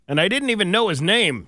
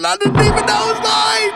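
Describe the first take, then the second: First: It is said in his own American accent. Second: It is said in a put-on English accent.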